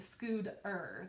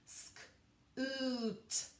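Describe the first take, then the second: First: The middle consonant sounds like a soft D. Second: The word is stretched out with a clear T. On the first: "it almost sounds like a D" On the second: "if I'm really stretching it out"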